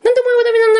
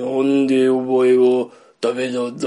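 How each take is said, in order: First: It is said in a high, sped-up voice. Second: It is said in a slow, low voice.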